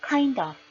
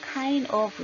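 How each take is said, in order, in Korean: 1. 마지막 d 소리가 바로 다음 모음으로 이어집니다. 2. 두 단어를 따로, 사이를 끊고 발음합니다. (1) "이렇게 뒷자음과 따라져 나오는 모음이 결합한다" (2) "이렇게 따로따로 떼는 것이 아니라"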